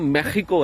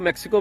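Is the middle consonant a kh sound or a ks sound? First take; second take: kh sound; ks sound. First: The middle consonant is a throaty kh sound. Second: The middle consonant is a ks sound. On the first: This is how the country's own people say it. "ये जो एक्स की आवाज है ये खे की आवाज है" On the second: This is how outsiders changed it. "आप लोगों ने इसको मैक्सिको बना दी"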